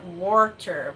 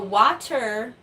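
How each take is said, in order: First: The w is followed by a vowel plus r. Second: The w is followed by an open ah vowel. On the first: "with a second R" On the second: "W A H"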